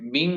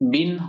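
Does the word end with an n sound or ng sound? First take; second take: ng; n. First: The word ends with a nasal ng sound. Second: The word ends with a dental n sound. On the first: The speaker calls it wrong. "বিং নয়" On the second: The speaker calls it right. "বিন হবে"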